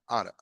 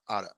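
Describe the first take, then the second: The two takes are said the same way.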